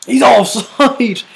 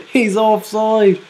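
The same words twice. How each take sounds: First: Higher, louder, slow stress on He's; He's drawn out high in shock at the flag; disbelief. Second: He's offside said again through a laugh. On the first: Reacting to the goal ruled out, stunned disbelief. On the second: Repeating the offside call to viewers, laughing. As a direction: laugh it off in disbelief. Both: Real, not acted.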